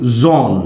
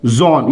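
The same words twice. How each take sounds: First: ज़ोन said low and drawn out, long O; model word. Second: ज़ोन repeated low and falling as the answer; model word. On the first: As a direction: demonstrate ज़ोन with a falling tone. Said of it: "ओ N E". (ज़ोन का धीमा, साफ़ उच्चारण) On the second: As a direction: give ज़ोन as a clear classroom answer. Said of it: "क्या होगा?". (उत्तर के रूप में ज़ोन, नीचे गिरता स्वर) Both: Shown as a demonstration.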